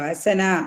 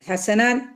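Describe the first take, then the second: First: The word ends on a long vowel. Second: The word ends with an n sound. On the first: The reading stops at this word. "ഹസന എന്ന് പറഞ്ഞിട്ടാണ് അതിനെ പുസ്തകപ്പെടുക" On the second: The reading continues into the next words. "കഴിഞ്ഞിട്ടുള്ള തൻവീൻ ആയിരുന്നല്ലോ"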